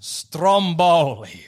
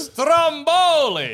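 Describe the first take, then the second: First: Very slow, stretched STROMBOLI; drawn-out announcement. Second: High, drawn-out STROMBOLI; emphatic repeat. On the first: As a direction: present STROMBOLI slowly in a lower pitch. Presenting the name, then repeating it. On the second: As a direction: stretch STROMBOLI out slowly, pitched way up. Repeats name after being asked who. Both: Real, not acted.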